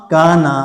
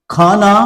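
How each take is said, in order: First: काना with a clean k, no breath; unaspirated kana. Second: खाना with a breathy, heavy kh; aspirated khana. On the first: Teacher contrasts plain काना. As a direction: say काना crisp, without a puff. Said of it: "इसको हम पढ़ेंगे काना". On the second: Teacher contrasts aspirated खाना. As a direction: push air on the kh of खाना. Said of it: "इसको हम पढ़ेंगे खाना". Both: Shown as a demonstration.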